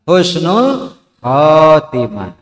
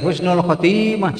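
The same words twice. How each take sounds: First: The vowel in 'kho' is long. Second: The vowel in 'kho' is short. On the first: The speaker calls it right. "nu panjang teh hokna" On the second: The speaker calls it wrong. "Ulah kieu husnul khotimah salah"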